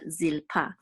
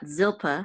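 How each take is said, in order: First: The stress is on the last syllable. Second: The stress is on the first syllable. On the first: The speaker calls it right. "but Zilpa" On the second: The speaker calls it wrong. "not Zilpa"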